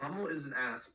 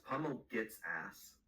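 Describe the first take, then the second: First: Said in the usual way. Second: "gets" slowed and leaned on; slow, punch "gets" in "Pummel gets ass"; stress on gets. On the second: Shown as a demonstration.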